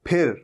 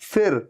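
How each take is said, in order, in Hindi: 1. पहली ध्वनि दोनों होंठ एक साथ मिलाकर बनती है। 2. पहली ध्वनि में ऊपर के दांत नीचे के होंठ पर होते हैं। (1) "पूरा फ का साउंड आता है" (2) "जहां पर ऊपर के दांत नीचे के लिप पे टच हो, फिर नहीं है"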